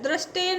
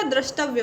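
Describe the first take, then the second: First: दृष्टेय ending in "tey"; wrong ending. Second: द्रष्टव्य ending in "tavya"; correct ending. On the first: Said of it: "दृष्टेय नहीं होता". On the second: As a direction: say द्रष्टव्य as "drash-tav-ya". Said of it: "द्रष्टव्य होता है". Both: Shown as a demonstration.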